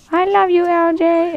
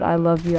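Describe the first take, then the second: First: Put-on very high, cute little-boy voice; cutest kid voice. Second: Said in the usual way. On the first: Imitating young friend to his buddy, cutest kid voice. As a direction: imitate an adorable twelve-year-old, way up high. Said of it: "he says it in the cutest voice". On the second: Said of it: "Like, he said".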